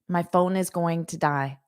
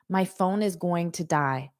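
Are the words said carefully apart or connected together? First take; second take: connected; connected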